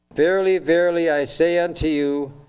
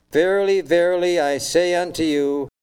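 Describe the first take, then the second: No difference in how they are said.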